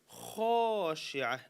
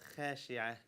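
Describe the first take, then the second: First: The kha is said with a full, heavy mouth. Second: The kha is said with a thin, light mouth. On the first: The speaker calls it right. "full mouth letters" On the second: The speaker calls it wrong.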